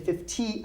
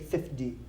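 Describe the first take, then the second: First: The T is a crisp, clear T sound. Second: The T sounds soft, almost like a D. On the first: "I don't say fifty" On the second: "I almost put, put it like a D"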